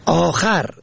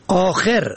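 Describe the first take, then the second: First: آخر said "aakhar", a after kh; fatha on second letter. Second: آخر said "aakher", e after kh; kasra on second letter. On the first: Teaching the word for other, short a ending. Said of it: "به فتح دوم". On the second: Teaching the word for last, short e ending. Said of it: "به کسر دوم". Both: Shown as a demonstration.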